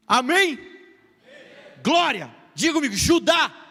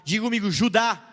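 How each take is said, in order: First: Higher, louder rallying call. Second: Said in the usual way. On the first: Shown as a demonstration. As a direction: rouse the crowd to answer. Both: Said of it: "Não, vamos lá, gente".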